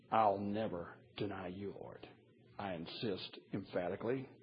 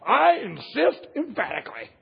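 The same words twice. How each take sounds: First: Low, soft quoted pledge; understated vow. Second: Loud, high, hammed-up insistence; emphatic. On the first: Retold or imitated. Preacher recalling Peter's vow to the Lord, quiet and understated. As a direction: say the boast quietly, well below full voice. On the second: Peter vowing loyalty to Jesus, hammed-up and emphatic. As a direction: declare it at full force as a mock boast. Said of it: "How do you say anything more strong".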